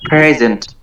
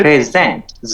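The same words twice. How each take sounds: First: present with PRE stretched and stressed; first syllable drawn out. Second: present with ZENT stretched and stressed; second syllable drawn out. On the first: Student showing the teacher the difference, first syllable stretched. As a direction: draw out the opening of present. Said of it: "pray, এখানে টান হয়েছে". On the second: Student showing the teacher the difference, second syllable stretched. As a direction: draw out the ending of present. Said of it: "জে, এখানে একটু long করা". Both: Shown as a demonstration.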